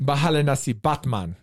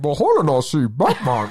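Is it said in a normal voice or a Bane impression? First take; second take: normal voice; Bane impression. First: It is said in a normal voice. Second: It is said in an impression of Bane.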